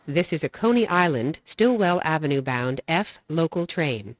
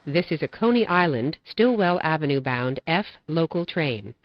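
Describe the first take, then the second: No difference in how they are said.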